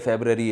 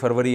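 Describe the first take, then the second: First: It is said as 'febrary', with a b sound. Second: It is said as 'farvari', with a v sound. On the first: This is the form the word takes in English. "English में" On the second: This is the form the word takes in Urdu. "Urdu में जनवरी फरवरी है ना"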